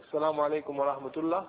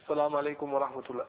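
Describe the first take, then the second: No difference in how they are said.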